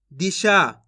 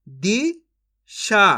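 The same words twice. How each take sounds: First: Said in the usual way. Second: Disha very slowly split as "दी ... शा"; syllable by syllable. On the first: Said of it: "इनको आपस में लाके पढ़ देना है". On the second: Shown as a demonstration. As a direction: sound out Disha in two separate pieces. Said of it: "एक अक्षर का उच्चारण करके". (दिशा को तोड़कर, धीरे-धीरे)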